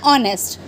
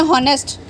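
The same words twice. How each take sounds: First: ऑनेस्ट starting on the vowel, h silent. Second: हॉनेस्ट with a sounded h at the start; wrong take with h. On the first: Teacher gives students the correct pronunciation, silent h. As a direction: say ऑनेस्ट like "onest", no h. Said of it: "तो एच silent है". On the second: Teacher shows students the wrong pronunciation, h sounded. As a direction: say हॉनेस्ट with the h clearly voiced. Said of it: "हम इसको बोलते हैं ऑनेस्ट". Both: Shown as a demonstration.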